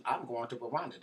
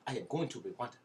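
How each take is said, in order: First: Said in the usual way. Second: Mock Rwandan accent, carefully unclipped words. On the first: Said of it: "No, I'm joking". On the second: Podcaster announcing a move to Rwanda, mock Rwandan accent. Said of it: "I'm going to talk like this".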